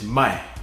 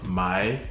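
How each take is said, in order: First: It is said with the sharply falling fourth tone. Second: It is said with the low dipping third tone. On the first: It means to sell. "and the fourth tone" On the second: It means to buy. "you have the third tone"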